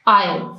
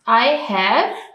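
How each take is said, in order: First: The word have is reduced and unstressed. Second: The word have is said fully and stressed. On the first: "weak form में कहते हैं आई" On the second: "ये है इसकी strong और weak form"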